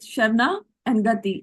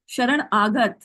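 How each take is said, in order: First: It is split into 'Sharna' and 'gati'. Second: It is split into 'Sharan' and 'agat'. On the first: The speaker calls it wrong. "she broke it down into two words" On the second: The speaker calls it right. "it is Sharan Agat"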